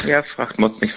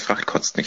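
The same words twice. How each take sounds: First: Said in the usual way. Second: Murmured under the breath; whispered punchline. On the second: Real, not acted. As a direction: whisper the joke aside.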